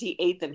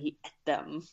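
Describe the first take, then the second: First: The word ate sounds like eight. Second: The word ate sounds like et. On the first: "he wasn't just he ate them" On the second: "super Britty sort of way"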